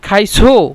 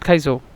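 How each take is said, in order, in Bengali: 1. শব্দটায় জোর দেওয়া হয়েছে, তাই প্রশ্নের সুর আসে। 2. শব্দটা সহজভাবে বলা হয়েছে, কোনো জোর নেই। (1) "আমরা ধাক্কা দিই এখানে কিন্তু প্রশ্ন হয়" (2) "সিম্পলভাবে বলি"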